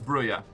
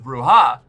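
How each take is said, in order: First: The name is said without a Spanish pronunciation. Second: The name is said with a Spanish pronunciation. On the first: "I originally thought it was" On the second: "because I assumed Spanish"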